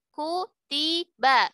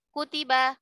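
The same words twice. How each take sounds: First: Each vowel gets one full, even beat. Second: The vowels are rushed and clipped short. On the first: The speaker calls it right. "satu satu satu" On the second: The speaker calls it wrong. "itu ikhtilas berarti"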